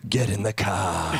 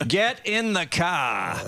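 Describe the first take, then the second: First: Low, slow booming dad voice; Darth Vader with Boston accent. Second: Very slow, drawn-out stern dad; Darth Vader with Boston accent. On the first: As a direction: growl it like a menacing father. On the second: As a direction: drag each word out like a threat. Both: Retold or imitated. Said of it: "like Darth Vader with a Boston accent".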